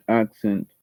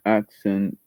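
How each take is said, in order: Both takes have the same delivery.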